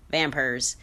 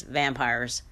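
First: "vampires" said as "vampers", lightly Southern; Southern accent. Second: Said in the usual way. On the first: Retold or imitated. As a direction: imitate a Southern drawl on "vampires". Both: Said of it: "in a Southern accent".

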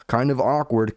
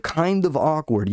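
First: Said in the usual way. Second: "kind of awkward" higher and slower, leaned on; drawn-out emphasis. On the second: Shown as a demonstration.

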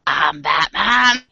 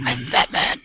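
First: Put-on slow Boston accent Batman growl. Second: Low gravelly Batman growl. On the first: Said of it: "add the Boston accent". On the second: Retold or imitated.

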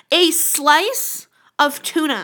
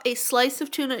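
First: "A slice of tuna" slowed right down, each word leaned on; heavy emphasis. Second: Said in the usual way. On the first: Shown as a demonstration. Telling a friend about the auction price, "A slice of tuna" heavily emphasized. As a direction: stretch and punch "slice" in "A slice of tuna". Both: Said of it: "I'm not even emphasizing enough".

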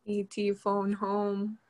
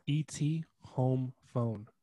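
First: Slow, drawn-out E T line; slow quote. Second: Slow, word-by-word "home phone"; slow quote. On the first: Asked for the famous line, slow alien quote. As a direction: drag each word like the alien. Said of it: "What is his famous line". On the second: Correcting the famous line, slow and deliberate. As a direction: spell out the swapped order slowly. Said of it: "he says". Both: Retold or imitated.

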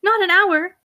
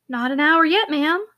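First: Higher, louder incredulous echo; indignant disbelief. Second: Gentle, calming reply; soothing. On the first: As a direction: throw the words back in disbelief. Mistress repeats in indignant disbelief. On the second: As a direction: soothe an upset mistress. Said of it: "answered the housekeeper soothingly". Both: A narrator's reading.

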